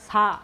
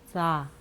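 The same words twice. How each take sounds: First: The s is plain, with no hissing air. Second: The s hisses with air leaking at the teeth. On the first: This is the ordinary Korean sound. "우리나라는 그냥 사 이렇게 이빨에 안 닿게" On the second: This is the Tibetan sound. "이빨에 닿으면서"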